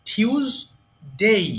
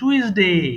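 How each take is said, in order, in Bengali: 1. প্রথম অক্ষরে 't' এর পরে একটি 'y' গ্লাইড আছে। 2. প্রথম অক্ষরটি একটি সাধারণ 't' দিয়ে শুরু হয়েছে। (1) "হবে টিউসডে" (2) "আমরা বেশিরভাগ কি বলি? ... টুইসডে হবে না"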